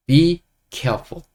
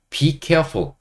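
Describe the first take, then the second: First: Slow model phrase. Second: Said in the usual way. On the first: Shown as a demonstration. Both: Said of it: "영어로 이렇게 말하시면 됩니다".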